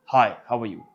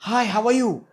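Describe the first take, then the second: First: Low-pitched greeting. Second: Very high-pitched greeting. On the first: Coach showing pitch difference, low-pitched. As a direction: drop the hello down low. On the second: Coach showing pitch difference, high-pitched. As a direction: say hello way up high. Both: Shown as a demonstration. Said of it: "Tone was the same".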